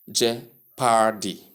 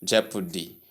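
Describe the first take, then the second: First: "jeopardy" slowly as je-PAR-dee, long AR; wrong pronunciation. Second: "jeopardy" as JEP-uh-dee, middle vowel weak; correct pronunciation. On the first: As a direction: mispronounce "jeopardy" with a drawn-out second syllable. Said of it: "long R sound". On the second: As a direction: say "jeopardy" stressed on the first syllable. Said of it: "So you simply say". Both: Shown as a demonstration.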